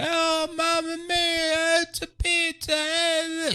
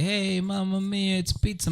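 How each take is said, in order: First: Very high, drawn-out mock Italian; over-the-top Italian accent. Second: Higher, singsong mock Italian; mock Italian accent. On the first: Kid on the mic to a stadium, hammed-up Italian. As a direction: stretch every word in a hammed-up Italian wail. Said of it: "He does the whole Italian thing". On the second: Organizers suggesting the pizza announcement, in mock Italian. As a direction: lightly imitate a stock Italian accent. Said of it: "the whole Italian thing".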